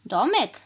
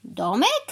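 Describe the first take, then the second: First: DOMEK raised, then dropped as an answer; confirming answer. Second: DOMEK lifted high in a rising question; disbelieving question. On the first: Cow confirming her plan to the crow, matter-of-fact answer. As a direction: confirm DOMEK without questioning it. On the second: Crow checking he heard the cow right, disbelieving question. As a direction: ask DOMEK as if you misheard. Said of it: "jakby się przesłyszał". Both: A narrator's reading.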